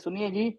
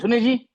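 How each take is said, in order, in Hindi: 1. यह नरम और प्यार भरे लहजे में कहा गया है। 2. यह कठोर और ज़ोरदार लहजे में कहा गया है। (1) "प्यार से बोलते" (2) "ऐसे बोलते"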